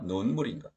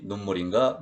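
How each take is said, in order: First: 눈물인가 with a lengthened 눈, lower; long vowel. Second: 눈물인가 with a short 눈; short vowel. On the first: Teacher meaning snow water, long 눈 in 눈물인가. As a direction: draw out 눈 as 누운 in 눈물인가. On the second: Teacher contrasting tears with snow water, short 눈물인가. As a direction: say 눈 in 눈물인가 briefly. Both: Shown as a demonstration. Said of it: "긴 소리, 짧은 소리 달라요".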